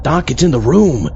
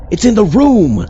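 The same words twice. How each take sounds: First: Said in the usual way. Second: Higher, louder, rising alarm; panicked. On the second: Acted. Assistant warning Doc about the ghost in the room, panicked. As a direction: sound the alarm, it's here.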